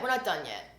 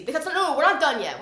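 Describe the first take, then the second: First: Said in the usual way. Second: Louder, punchy insistence; emphatic. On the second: Real, not acted. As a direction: stress the not, firmly. Stylist still cutting, emphatic.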